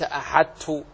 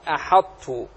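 First: أحدت said as light ahattu, no ط; only a plain doubled ت in أحدت; full assimilation, faulty. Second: أحط with heavy ط closure, released into a t; emphatic closure kept. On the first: Teacher showing what nobody reads, أحدت with the ط wholly lost. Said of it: "ولو أعدمنا الطاء في أحدت". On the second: Teacher showing the correct trait, أحط with heavy held ط. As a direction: hold the ط of أحط emphatic, no bounce. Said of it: "صفة الإطباق". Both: Shown as a demonstration.

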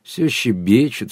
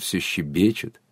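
First: Slow, drawn-out contented teasing. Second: Softer, lower contented echo. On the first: Sergei teasing the chattering women, slowly and contentedly. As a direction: stretch it out with satisfied indulgence. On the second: Sergei repeating his tease to himself, softly contented. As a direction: let it sink to a quiet, satisfied aside. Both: A narrator's reading. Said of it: "сказал удовлетворённо".

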